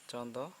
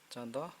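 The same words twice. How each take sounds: The two takes are said the same way.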